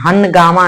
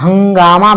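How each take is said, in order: First: A separate full n is said before g. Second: The nasal blends straight into the g sound. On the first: The speaker calls it wrong. "हनगामा नहीं बोलते हैं" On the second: The speaker calls it right. "हंगामा बोलते हैं"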